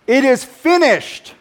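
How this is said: It is said strongly, like a victorious declaration. The work has been completed in victory. The speaker calls it right. "It's a victorious declaration"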